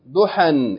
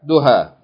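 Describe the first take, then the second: First: The word ends with an n sound. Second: The word ends in a long vowel, no n. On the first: The reader keeps reading past the word. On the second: The reader stops on the word.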